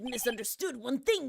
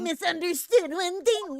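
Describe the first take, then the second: First: It is said in a normal, unaltered voice. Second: It is said in a put-on female character voice. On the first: The speaker calls it wrong. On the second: The speaker calls it right.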